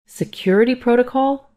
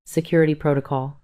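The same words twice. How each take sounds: First: High, incredulous echo rising into a question; mild near-scream. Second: Said in the usual way. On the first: A narrator's reading. Mother echoing the nurse's refusal, mild near-scream. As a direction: throw it back high, in disbelief. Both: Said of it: "My voice was almost a scream".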